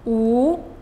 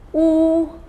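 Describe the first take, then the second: First: The pitch rises from mid to high. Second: The pitch stays high and level.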